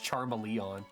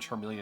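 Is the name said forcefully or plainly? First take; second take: forcefully; plainly. First: The name is said forcefully and emphatically. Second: The name is said plainly, without force. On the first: "it's Charmeleon" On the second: "Charmeleon's no longer Charmeleon"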